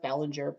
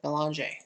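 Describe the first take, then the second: First: The name is said the non-Canadian way, Bellinger. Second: The name is said the Canadian way, Belanger.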